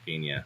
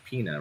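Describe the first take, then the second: First: The middle consonant is an ny sound. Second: The middle consonant is a plain n sound. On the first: The speaker calls it wrong. "rather than Pina" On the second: The speaker calls it right. "There's no Anya. It's it's Pina"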